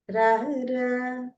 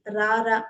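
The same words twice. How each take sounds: First: RARA stretched long on a held note; drawn-out call. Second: RARA said short and level; short plain call. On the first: Teacher showing intonation by example, long drawn-out RARA. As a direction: draw RARA out slowly, holding the last vowel. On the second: Teacher showing intonation with one word, short level RARA. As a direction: say RARA briefly on an even note. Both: Shown as a demonstration. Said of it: "the intonation changes".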